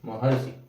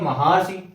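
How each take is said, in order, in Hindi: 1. 'm' के बाद ह्रस्व 'a' आता है, जो 'r' से जुड़ जाता है। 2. 'm' के बाद दीर्घ 'aa' आता है, फिर एक अलग 'ra'। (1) "क्या होता है शुद्ध? महर्षि" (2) "महारसी अशुद्ध है"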